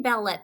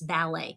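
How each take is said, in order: First: The final T sound is pronounced. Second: The final T sound is silent. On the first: The speaker calls it wrong. "We should not say ballet" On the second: The speaker calls it right. "It's ballet"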